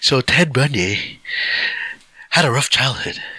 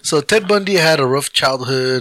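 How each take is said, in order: First: It is said in a special put-on voice. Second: It is said in the speaker's ordinary voice.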